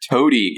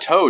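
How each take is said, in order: First: The name is said as two syllables. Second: The name is said as one syllable. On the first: "I've always pronounced it Toady because it's got the e at the end" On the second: "your pronunciation of uh, of the one character's name"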